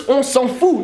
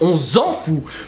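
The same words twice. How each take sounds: First: The consonant in s'en is a hissing S sound. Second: The consonant in s'en is a buzzing Z sound. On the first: The speaker calls it right. "it's on s'en fout" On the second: The speaker calls it wrong. "not on s'en fout"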